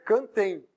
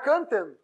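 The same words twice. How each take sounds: First: The ending has a clear 'ee' glide sound. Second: The ending has no 'ee' glide sound. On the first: The speaker calls it right. "Não sai o som do I?" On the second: The speaker calls it wrong. "Não é cantem"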